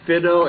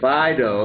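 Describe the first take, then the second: First: The first vowel is a different one. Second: The first vowel is the usual one. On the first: The speaker calls it wrong. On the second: The speaker calls it right.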